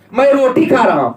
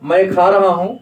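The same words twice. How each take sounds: First: Raised, a touch louder, mock cross; mock angry. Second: Said in the usual way. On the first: Shown as a demonstration. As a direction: snap it out like a cross eater. (नकली गुस्से में ज़ोर से) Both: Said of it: "गुस्सा तो नहीं बोले".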